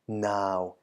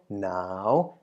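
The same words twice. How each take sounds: First: The syllable is said with a low tone. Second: The syllable is said with a rising tone. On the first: "the deep or low version first" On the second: "and also the rising tone"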